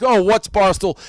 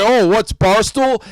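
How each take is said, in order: First: Lightly mocking, playing dumb; feigned innocence. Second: Slow, drawn-out mock cluelessness; feigned innocence. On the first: Host mocking a rival writer, mild fake innocence. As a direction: mimic a guy pretending he's never heard of it. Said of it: "he tries to act". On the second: Host repeating a rival's fake ignorance, slow and mocking. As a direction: stretch it out, playing dumb with a sneer. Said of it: "you're gonna come say".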